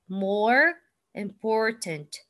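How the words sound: It is in an American accent with final R.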